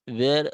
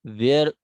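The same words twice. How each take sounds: The two takes are said the same way.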